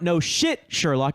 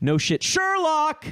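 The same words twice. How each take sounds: First: The stress falls on the word shit. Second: The stress falls on the word Sherlock. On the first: The speaker calls it wrong. "Don't put the emphasis on curse words" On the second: The speaker calls it right. "Put it on the word right after the curse word"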